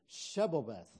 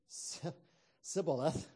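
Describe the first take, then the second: First: The word begins with an sh sound. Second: The word begins with an s sound. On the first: The speaker calls it right. "They couldn't say that sh sound" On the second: The speaker calls it wrong. "They could only say the s sound"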